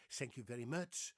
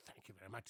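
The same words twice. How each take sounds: First: "thank you very much" with s for th; "thank you very much" in a Dutch accent; Dutch-accented pronunciation. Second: "thank you very much" softly, with a proper th; "thank you very much" understated, th not s; correct English pronunciation. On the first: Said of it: "They say thank you very much". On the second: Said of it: "Not thank you very much". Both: Shown as a demonstration.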